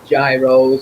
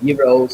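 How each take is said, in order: First: It is said the familiar English way. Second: It is said the Greek way. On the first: This is what people here usually call it. "we all know as" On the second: This is what they are called in Greece. "as they're actually called over there"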